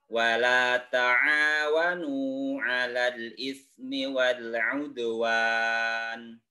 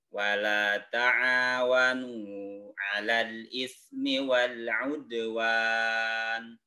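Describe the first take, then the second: No difference in how they are said.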